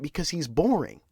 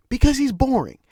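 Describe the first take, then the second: First: Said in the usual way. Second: Higher, louder exasperated restatement; fed-up emphatic outburst; emphatic repeat. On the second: Shown as a demonstration. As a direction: hammer the point home. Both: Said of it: "repeats for emphasis".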